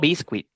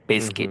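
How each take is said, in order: First: The second vowel is a wi glide. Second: The second vowel is a plain i sound. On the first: The speaker calls it wrong. "No biscuit" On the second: The speaker calls it right. "Por la U y la I"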